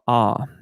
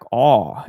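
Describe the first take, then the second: First: The vowel is placed further forward in the mouth. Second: The vowel is placed far back in the mouth. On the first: The speaker calls it right. "instead of" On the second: The speaker calls it wrong. "too far back"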